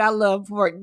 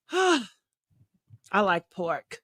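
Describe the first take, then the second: First: Said in the usual way. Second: Low, soft, sighing longing for pork; wistful sigh. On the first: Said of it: "I said". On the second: Real, not acted.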